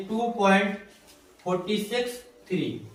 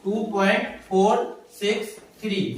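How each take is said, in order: First: Digits after the point read as "फ़ोर्टी सिक्स", forty-six; "two point फ़ोर्टी सिक्स three" with फ़ोर्टी as one number; wrong reading. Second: Each digit after the point alone, "फ़ोर सिक्स three"; "फ़ोर" and "सिक्स" as separate single digits, not forty-six; correct reading. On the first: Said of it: "ये गलत है". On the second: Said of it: "one one digit करके पढ़ना है". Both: Shown as a demonstration.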